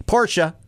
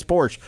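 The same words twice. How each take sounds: First: "Porsche" as POR-shuh; corrected Porsche. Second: "Porsche" as PORSH; one-syllable Porsche. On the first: Shown as a demonstration. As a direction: sound both syllables of "Porsche". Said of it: "if you say it wrong". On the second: Retold or imitated. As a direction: leave off the final E of "Porsche". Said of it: "I'm like".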